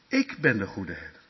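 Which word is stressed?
ik. The stress falls on ik at the start. It is this speaker and no one else. The speaker calls it right. "dat je moet zeggen, die goede herder, zegt Jezus, dat ben ik"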